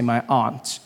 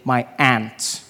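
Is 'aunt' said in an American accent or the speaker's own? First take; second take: own; American. First: Aunt is said in the speaker's own accent. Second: Aunt is said in an American accent.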